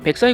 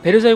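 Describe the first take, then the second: First: It is said with a French-style pronunciation. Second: It is said with a Korean-style pronunciation. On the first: "프랑스식 발음으로 읽어드리면" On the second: "우리나라식 발음이고"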